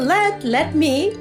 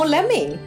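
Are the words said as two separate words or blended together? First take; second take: separate; blended. First: The two words are said fully and separately. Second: The two words are blended into one reduced word. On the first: This is the form found in the dictionary. "It tells you let me" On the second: This is the casual spoken form missing from the dictionary. "but no lemmy"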